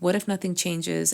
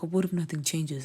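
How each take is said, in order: First: It sounds open and hopeful. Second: It sounds resigned and hopeless.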